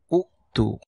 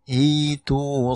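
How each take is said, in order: First: The word begins with a u vowel. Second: The word begins with an i vowel. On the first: The speaker calls it wrong. "Dibacanya bukan u'tu" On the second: The speaker calls it right. "tapi dibacanya itu saffa"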